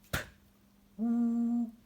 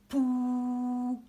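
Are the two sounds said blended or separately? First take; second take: separately; blended. First: The two sounds are said apart with a gap. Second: The two sounds are joined into one syllable. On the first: "Mettons P et OU" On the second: "Ça fait une première syllabe"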